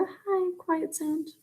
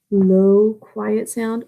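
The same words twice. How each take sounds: First: High-pitched, very soft voice; high and quiet. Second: Quiet sound in a low voice; low pitch. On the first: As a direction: lift the pitch but keep it tiny. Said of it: "or a high quiet sound". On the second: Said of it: "there can be a low quiet sound". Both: Shown as a demonstration.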